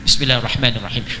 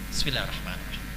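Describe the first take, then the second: First: The phrase is said aloud, clearly audible. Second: The phrase is said quietly, almost silently. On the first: The basmala is recited aloud. The speaker calls it wrong. "itu sama aja jahar" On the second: The basmala is recited silently. The speaker calls it right.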